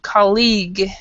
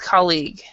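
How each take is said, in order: First: The stress falls on the second syllable. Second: The stress falls on the first syllable. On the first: The speaker calls it wrong. "you're stressing the the the second sy- syllable even more than you should. It isn't colleague" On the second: The speaker calls it right. "it's colleague"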